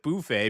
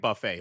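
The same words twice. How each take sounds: First: The word has a Korean-style pronunciation. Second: The word has a native English pronunciation. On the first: "that's how Korean, Koreans pronounce buffet" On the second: "I grew up saying buffet"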